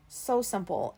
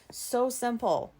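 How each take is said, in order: First: Said in the usual way. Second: So simple, drawn out slowly for weight; slow stressed repeat. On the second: Shown as a demonstration. Telling listeners how easy it was, slow emphasis. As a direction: lean on "so simple" and stretch it slowly.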